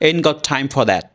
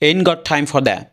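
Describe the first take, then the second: Both takes have the same delivery.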